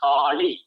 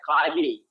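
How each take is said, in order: First: "Kali" with the tongue curled back on the L; KALI with retroflex L. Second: "Kali" with an ordinary la, tongue forward; KALI with plain L. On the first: Teacher showing the letter law in a word, retroflex L in "Kali". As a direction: curl the L in "Kali". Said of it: "This is law". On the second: Teacher offering the alternative reading, plain L in "Kali". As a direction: keep the L of "Kali" uncurled. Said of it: "You can also try Kali". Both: Shown as a demonstration.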